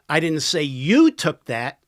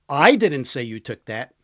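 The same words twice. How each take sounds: First: The word 'you' carries the strongest stress. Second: The word 'I' carries the strongest stress. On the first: Someone else took it. "Somebody else did" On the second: Someone else said it. "Somebody else did"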